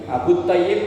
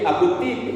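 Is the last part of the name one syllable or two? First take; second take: two; one. First: The name ends in two syllables, Tay-yib. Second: The name ends in one syllable, Tib. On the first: The speaker calls it wrong. "bacanya At-Tib bukan Thayyib" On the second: The speaker calls it right. "bacanya At-Tib"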